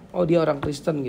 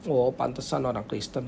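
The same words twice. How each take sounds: First: Simple, even-voiced realisation; approving recognition. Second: Low, softer dismissive remark; knowing disapproval. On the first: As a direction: say it as a neutral, favourable discovery. (pengakuan positif yang wajar) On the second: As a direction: say it under your voice, as if it figures. (sindiran pelan meremehkan) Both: Shown as a demonstration. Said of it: "Beda ya, nadanya beda ya".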